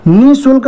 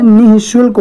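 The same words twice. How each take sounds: First: निःशुल्क said plainly as nisulk, no breath before the sh; wrong form. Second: निःशुल्क with a breathy h before shulk, nih-shulk; correct form. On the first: Teacher voicing the wrong form for students, निःशुल्क without visarga. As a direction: drop the visarga sound in निःशुल्क. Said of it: "निःशुल्क नहीं होता है". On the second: Teacher giving the correct form to students, निःशुल्क with a clear visarga h. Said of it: "निःशुल्क होता है". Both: Shown as a demonstration.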